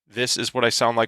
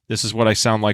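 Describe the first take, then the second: First: The voice is shaped by an esports EQ preset. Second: The voice is shaped by a broadcast EQ preset. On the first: "with the esports preset" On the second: "on the broadcast preset"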